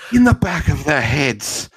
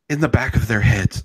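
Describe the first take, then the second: First: It is said in a dramatic, theatrical way. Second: It is said in a plain, flat way.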